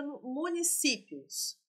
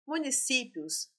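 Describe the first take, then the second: First: Municípios drawn out syllable by syllable; slow, careful pronunciation. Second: Said in the usual way. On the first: Shown as a demonstration. Teacher sounding out municípios for exam students, slowly. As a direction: spell out municípios slowly for the class. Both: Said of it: "teacher repeats the word for students".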